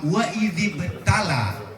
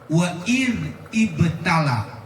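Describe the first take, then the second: First: The words are joined smoothly into one. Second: The words are said separately, not joined. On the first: The speaker calls it right. "makanya diwasal" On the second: The speaker calls it wrong. "kalau dibaca begini menjadi kagak enak didengar"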